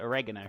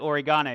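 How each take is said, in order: First: It is said with an American pronunciation. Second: It is said with a British pronunciation. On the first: "You guys call it oregano" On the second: "We or we call it oregano"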